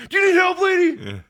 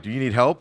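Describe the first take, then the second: First: Much higher, louder yelled question; panicked shout. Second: Said in the usual way. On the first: Retold or imitated. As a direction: yell it like you're freaking out. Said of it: "but I was probably like". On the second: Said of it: "in my mind, I'm like".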